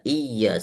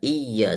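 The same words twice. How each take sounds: First: The voice resonates in the mouth. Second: The voice resonates in the mouth.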